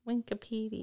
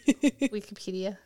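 First: The word is said with an extra n sound. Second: The word is said without an extra n sound. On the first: The speaker calls it wrong. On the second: The speaker calls it right.

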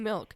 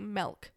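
First: The vowel sounds like the i in bit. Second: The vowel sounds like the e in bed. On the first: The speaker calls it right. "it's an I" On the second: The speaker calls it wrong. "I also hate when people say milk"

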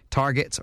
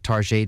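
First: It is said the plain everyday way. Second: It is said in a posh, French-sounding way.

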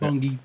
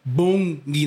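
First: The word has an American pronunciation. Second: The word has a Bahamian pronunciation. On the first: It names the company that makes Halo. The speaker calls it wrong. "not Bungie. Bungie is the people who's make Halo" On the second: It names the local thing being talked about. The speaker calls it right. "it's Bungie"

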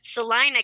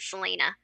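First: The name is said in the local pronunciation. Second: The name is said in the show's pronunciation. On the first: The speaker calls it right. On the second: The speaker calls it wrong.

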